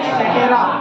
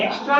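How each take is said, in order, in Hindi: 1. यह चार अक्षरों में बोला जाता है, 'et cetera'। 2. यह दो अक्षरों में बोला जाता है, 'extra'। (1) "एक्सेट्रा पढ़ना पड़ेगा" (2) "एक्स्ट्रा नहीं है"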